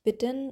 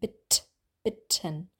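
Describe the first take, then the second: First: The middle consonant sounds soft and voiced. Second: The middle t sounds hard and voiceless. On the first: The speaker calls it wrong. "Es ist nicht bitten" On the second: The speaker calls it right. "Gerne richtig hart üben"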